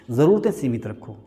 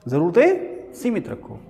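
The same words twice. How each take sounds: First: Said in the usual way. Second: ज़रूरतें सीमित रखो drawn out slowly, every word weighted; slow emphatic repeat. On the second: Shown as a demonstration. Teacher to class, repeating the rule slowly and emphatically. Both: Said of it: "क्या रखो?".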